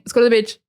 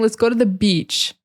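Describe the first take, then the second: First: The vowel in beach is short and unstressed. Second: The vowel in beach is long and stressed. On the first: The speaker calls it wrong. "I'm not saying" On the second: The speaker calls it right. "you hear how that sound is very stressed"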